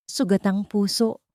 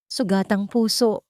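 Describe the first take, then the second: No difference in how they are said.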